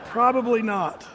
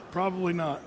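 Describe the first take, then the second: First: Laughing. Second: Said in the usual way. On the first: Real, not acted. Joke about coloring in Sunday school.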